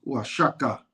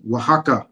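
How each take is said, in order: First: "Oaxaca" said wa-SHA-ka; Nahua pronunciation. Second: "Oaxaca" said wa-HA-ka; Spanish pronunciation. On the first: Teaching a co-host the Nahua way, "Oaxaca" as wa-SHA-ka. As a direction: say "Oaxaca" with a sh sound for the x. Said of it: "how you pronounce it in Nahua". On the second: Showing a co-host how Spanish says it, "Oaxaca" as wa-HA-ka. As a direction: say "Oaxaca" with a breathy h for the x. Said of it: "that's how they pronounce it in Spanish". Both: Shown as a demonstration.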